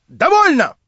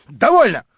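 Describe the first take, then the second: First: Второе «Довольно!» намного выше и громче; сорваться на крик; срыв на крик. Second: Громкий выкрик. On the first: («Довольно!» выкрикнуть высоко и отчаянно) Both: Acted. Инженер выбегает в волнении.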